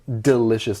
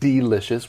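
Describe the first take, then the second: First: The first vowel is short and reduced. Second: The first vowel is drawn out long. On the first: The word is said quickly in ordinary speech. "Often we do just say delicious" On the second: The speaker really wants to emphasize the word. "make that E a long E if you really want to emphasize that"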